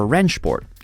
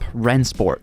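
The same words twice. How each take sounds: First: The name is said with German-style sounds. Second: The name is said with English-style sounds.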